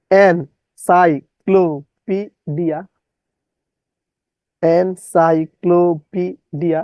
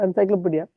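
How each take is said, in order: First: "encyclopedia" very slowly, syllable by syllable; distorted spelling pronunciation. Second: Said in the usual way. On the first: Shown as a demonstration. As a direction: break "encyclopedia" into separate, drawn-out syllables. ("encyclopedia" ভেঙে ভেঙে, ধীরে বিকৃত উচ্চারণ) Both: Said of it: "বিকৃত উচ্চারণ করবেন".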